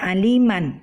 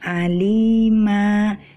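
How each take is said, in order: First: The word ends with a short vowel plus n. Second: The word ends on a lengthened vowel, no n. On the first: The reader continues without stopping. The speaker calls it wrong. "Jadi tidak lagi kita baca aliman" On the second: The reader stops on this word. The speaker calls it right. "bila kita berhenti ataupun waqaf pada kalimat ini, kita harus membaca dengan alima"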